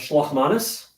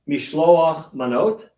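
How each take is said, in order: First: It is said in an Ashkenazi accent. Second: It is said in a Modern Hebrew accent.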